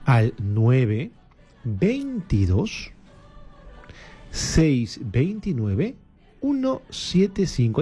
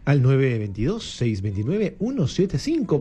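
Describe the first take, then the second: First: The number is said slowly, with pauses. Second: The number is said at a fast pace.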